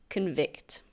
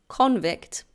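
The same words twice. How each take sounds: First: The stress is on the second syllable. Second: The stress is on the first syllable. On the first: It is the verb. "but this is pronounced convict" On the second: It is the noun. "There is a noun with the same spelling, and that's pronounced convict"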